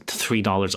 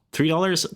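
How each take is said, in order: First: Said in the usual way. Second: High incredulous rise on "Three dollars?"; surprised question. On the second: Real, not acted. Disbelieving "Three dollars?" with the pitch jumping up. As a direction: player balks at the vape price, surprised rise. Player hears vape price.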